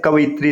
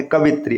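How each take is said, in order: First: कवित्री said as "kavayitree"; correct form. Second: कवित्री said as "kavitree"; wrong short form. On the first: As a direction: add a light "yi" inside कवित्री. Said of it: "इसका सही स्वरूप होता है". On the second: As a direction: say कवित्री in three syllables. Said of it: "ये शुद्ध रूप में लिखने". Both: Shown as a demonstration.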